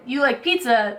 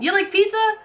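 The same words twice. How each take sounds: First: The pitch stays level or falls at the end. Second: The pitch rises at the end. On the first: It is stated as a fact. "if you just say it" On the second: It is asked as a question. "we go up in intonation"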